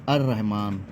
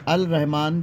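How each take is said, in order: First: The l merges into a doubled r sound. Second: A clear l sound comes before rahman. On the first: "ये रे से मिल गया अर Rahman" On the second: "असल में अल रहमान ही था"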